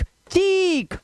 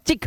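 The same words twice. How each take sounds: First: "चीक" with a long raised ee; drawn-out, higher "चीक"; long vowel. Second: "चिक" with a short i; wrong brief "चिक"; short-vowel mistake. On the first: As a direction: stretch the ee in "चीक". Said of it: "थोड़ा लंबा लो sound". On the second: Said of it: "not चिक". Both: Shown as a demonstration.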